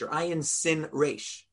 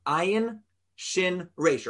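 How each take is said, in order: First: "sin" said slowly with a plain S sound. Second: "shin" said slowly with an SH sound. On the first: Rabbi spells the alternative root for class, "sin" with S. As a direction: spell it out, giving "sin" a clear S. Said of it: "pronouncing it with an S sound". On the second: Rabbi spells the Hebrew root for class, "shin" with SH. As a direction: spell it out, giving "shin" a clear SH. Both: Shown as a demonstration.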